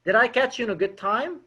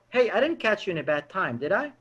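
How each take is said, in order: First: Said in the usual way. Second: Soft "didn't catch you", falling into "did I?"; negative spin question. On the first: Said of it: "There's a difference". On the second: Shown as a demonstration. Caller checks with the prospect, negative spin, soft falling doubt. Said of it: "learn about this negative spinning".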